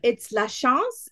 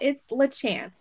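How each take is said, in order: First: The name is said with a French accent. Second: The name is said with a Southern American accent.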